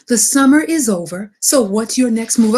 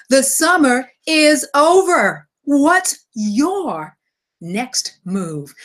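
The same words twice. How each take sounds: First: Said in the usual way. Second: The summer is over, each word weighted, slowed down; slow emphatic repeat. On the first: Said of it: "I'm gonna say it one more time". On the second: Shown as a demonstration. Host repeating his theme for emphasis, slow and weighty. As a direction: lean hard on "over" and "next move". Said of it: "for three times for emphasis".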